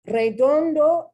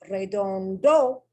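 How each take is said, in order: First: The stress falls on the next-to-last syllable. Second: The stress falls on a different syllable. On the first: The speaker calls it right. "is the correct pronunciation" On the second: The speaker calls it wrong. "is the incorrect pronunciation"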